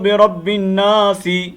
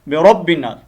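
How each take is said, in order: First: The last word ends with an added short vowel. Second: The last word ends on a bare consonant. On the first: The speaker calls it wrong. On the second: The speaker calls it right.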